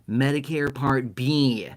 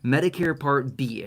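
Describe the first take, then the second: First: It is said in a nasal voice. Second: It is said in a normal voice.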